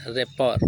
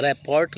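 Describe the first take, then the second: First: "रैपर" said ra-por, no final t; silent t. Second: "रिपोर्ट" said rap-port with t sounded; spelling pronunciation "रिपोर्ट", ending -ort; as spelled. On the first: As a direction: leave the t off "रैपर". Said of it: "लेकिन पढ़ते क्या?". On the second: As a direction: hit the final t of "रिपोर्ट". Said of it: "रिपोर्ट लिखते हैं". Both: Shown as a demonstration.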